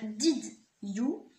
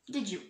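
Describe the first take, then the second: First: The words are said separately, with a plain D. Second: The words are linked with a J sound between. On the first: The speaker calls it wrong. "on va pas dire did you, ce serait encore une fois trop long" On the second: The speaker calls it right. "On va les lier ensemble et mettre euh, le son J"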